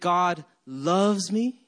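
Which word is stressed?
loves. The stress is on loves.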